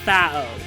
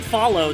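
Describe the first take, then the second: First: The L sound in the middle is dropped. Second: The L sound in the middle is pronounced. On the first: "They do not pronounce the L" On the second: "you're saying Follow"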